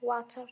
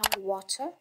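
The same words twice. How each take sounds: First: It is said in a Moroccan accent. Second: It is said in a British accent. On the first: "وحنا المغاربة نقدروا نقولوها" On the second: "البريطاني كيقول لها"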